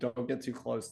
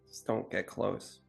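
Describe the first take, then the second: First: It is said in the speaker's own voice. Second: It is said in the character's put-on voice.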